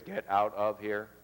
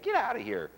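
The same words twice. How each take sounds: First: It is said in a plain, literal tone. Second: It is said in a playful, teasing tone. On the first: The listener should actually leave. "What they hear is" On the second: The listener should not take it seriously. "it doesn't mean that you should leave. I'm, I'm kidding"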